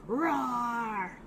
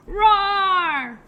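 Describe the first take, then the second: First: Mild demonstration roar; lion roar. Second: Big, loud, higher lion roar. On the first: Shown as a demonstration. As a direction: give a small, drawn-out lion roar. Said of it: "They sound like this". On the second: Pretend. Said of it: "we'll roar at our lion friend".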